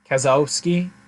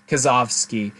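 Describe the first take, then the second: First: The consonant before -ski is a W sound. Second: The consonant before -ski is a V sound. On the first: The speaker calls it wrong. "So instead of" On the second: The speaker calls it right. "as I think it should be pronounced"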